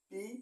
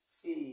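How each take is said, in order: First: It is said in an Indian accent. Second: It is said in an American accent. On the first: "Indian উচ্চারণে বলি" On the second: "American উচ্চারণে বলি"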